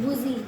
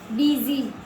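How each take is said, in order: First: The first vowel is a long 'oo' sound. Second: The first vowel is an 'ee'-like sound. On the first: The speaker calls it wrong. "इसको हम बूजी क्यों नहीं बोलते?" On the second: The speaker calls it right. "इसलिए यू का pronounce आएगा ई से"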